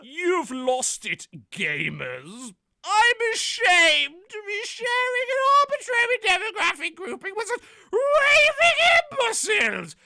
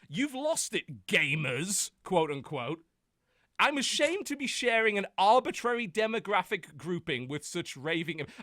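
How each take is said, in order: First: It is read in a mocking put-on voice. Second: It is read in his plain voice.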